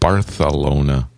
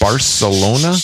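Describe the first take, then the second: First: The middle consonant is a th sound. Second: The middle consonant is an s sound.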